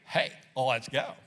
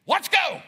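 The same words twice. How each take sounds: First: Lower, slow, dragging "Hey, let's go"; low grudging "Hey, let's go"; reluctant. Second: "let's go" much higher and louder, pumped; excited, loud "let's go"; eager. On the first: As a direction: sigh it out as a chore. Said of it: "Or it could be". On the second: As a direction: fire them up. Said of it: "you can say the same thing". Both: Retold or imitated.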